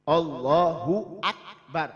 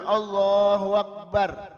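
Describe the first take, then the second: First: A clear glottal stop separates 'akbar' from 'Allahu'. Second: 'Allahu' runs into 'akbar' without a clear stop. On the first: The speaker calls it right. "A-nya jelas. Hamzahnya jelas" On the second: The speaker calls it wrong. "Bukan Allahu akbar. Gak jelas"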